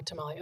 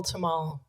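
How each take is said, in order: First: Said in the usual way. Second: Tamale said as ta-MAHL; tamal. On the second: Real, not acted. Asking the audience who has eaten one, tamale as ta-MAHL. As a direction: say "tamale" without the final ee, ta-MAHL. Offers two names for the dish.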